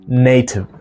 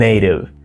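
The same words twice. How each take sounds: First: The middle t is a clear t sound. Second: The middle t is a soft d sound. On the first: "In British English, you would hear this word as native" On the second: "in American English, it's native"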